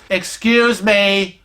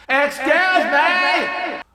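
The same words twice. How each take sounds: First: Slow, drawn-out request for attention; a little louder. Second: High, drawn-out screech; practically screaming. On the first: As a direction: stretch it out to be heard. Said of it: "a little louder". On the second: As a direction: screech it slowly to get them moving. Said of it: "I'm, like, practically screaming". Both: Retold or imitated.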